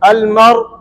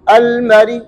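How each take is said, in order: First: The final r is held with no vowel after it. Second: The final r carries a faint, short i sound. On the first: "सुकून की है" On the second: "रा के कसरे पर ... तीसरा हिस्सा जाहिर करेंगे"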